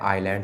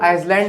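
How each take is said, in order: First: The s is not pronounced at all. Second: The s is pronounced in the word. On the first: The speaker calls it right. "एस will be silent" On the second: The speaker calls it wrong. "इसको आइसलैंड नहीं पढ़ते"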